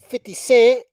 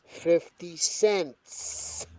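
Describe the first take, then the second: First: The final s sound is dropped. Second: The final s sound is clearly pronounced. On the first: The speaker calls it wrong. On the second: The speaker calls it right.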